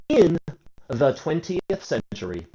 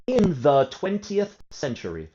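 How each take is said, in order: Both takes have the same delivery.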